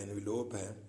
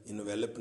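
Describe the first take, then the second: First: انویلوپ with a long o in the last part; انویلوپ ending in "lope"; say envelope right. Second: انویلپ with a short clipped last part, no o; انویلپ said as "velp"; wrong envelop. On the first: Teacher saying انویلوپ to the class. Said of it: "اس کا تلفظ انویلوپ ہی ہے". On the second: Teacher showing the class the wrong انویلپ. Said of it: "انویلپ نہیں". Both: Shown as a demonstration.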